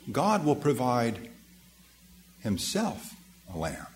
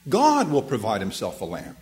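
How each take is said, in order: First: The stress falls on the word himself. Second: The stress falls on the word God. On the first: God provides himself as the lamb. "But you can also read it this way" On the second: God is the one who provides the lamb. "The emphasis there can be upon the first word, God"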